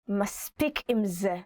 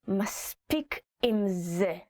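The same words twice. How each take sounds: First: It is said plainly with an open mouth. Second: It is said through clenched teeth.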